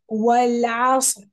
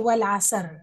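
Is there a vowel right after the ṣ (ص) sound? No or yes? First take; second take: No; Yes. First: No vowel follows the ṣ sound. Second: A short a vowel follows the ṣ sound. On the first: The speaker calls it right. "صاد has a سكون. So say عصر والعصر" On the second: The speaker calls it wrong. "Don't say والعصر. It's not والعصر because صاد doesn't have a فتحة"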